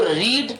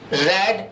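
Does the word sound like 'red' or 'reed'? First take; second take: reed; red. First: The vowel is long, as in 'reed'. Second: The vowel is short, as in 'red'. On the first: It is the base form of the verb. "यानी कि इसको रीड" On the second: It is the past form of the verb. "जब second form के रूप में बोलेंगे तो इसका रीड नहीं निकलेगा, रेड निकलेगा"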